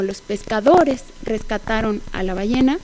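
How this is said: The main stress falls on the subject noun. The speaker calls it wrong. "establecer el foco de la oración sobre el sujeto ... resulta extraño"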